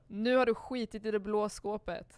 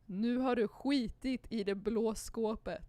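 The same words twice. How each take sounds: First: It is said at normal conversational speed. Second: It is said a little more slowly.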